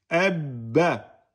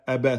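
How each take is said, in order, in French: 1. Le b est tenu avant le relâchement. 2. Le b est court, sans tenue. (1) "vous allez bloquer ab... et ensuite vous lâchez. Abba... c'est bon, vous avez fait la shedda" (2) "vous dites pas aba, aba. Si vous dites aba, vous avez oublié le premier soukoun"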